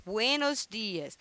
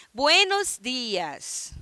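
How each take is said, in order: First: Said in the usual way. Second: Slow, carefully drawn-out greeting; slow model greeting. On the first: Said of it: "teacher repeats the greeting". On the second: Shown as a demonstration. Teacher slowly models the greeting for students, slow and deliberate. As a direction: spell it out slowly for the class. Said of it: "teacher models the greeting slowly".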